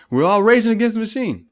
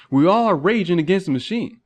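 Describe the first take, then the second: First: Belted louder and higher; rage against the machine. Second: Said in the usual way. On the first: Shown as a demonstration. Speaker echoing the band name as a louder rallying shout. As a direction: shout the slogan like a rally cry. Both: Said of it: "Little reference right there".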